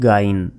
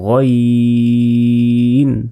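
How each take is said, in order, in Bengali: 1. প্রথম স্বরধ্বনিটি aa এর মতো শোনায়। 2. প্রথম স্বরধ্বনিটি o এর মতো শোনায়। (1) "আমরা অনেকে বলি গাইন, এটা কিন্তু ভুল" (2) "এটা পড়ার সময় বলতে হবে গইন গইন"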